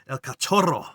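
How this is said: The name is pronounced the Spanish way. "But in in um, Spanish, it's El Cachorro"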